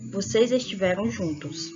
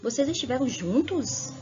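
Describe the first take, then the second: First: It is said as a plain statement. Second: It is said with surprise.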